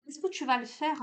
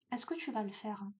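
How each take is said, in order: First: Said in the usual way. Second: Same question asked again, much softer; a quieter second asking of the question; softer repeat. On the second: Real, not acted. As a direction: let it drop to a softer, inward ask. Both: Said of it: "repeats the question to the viewer".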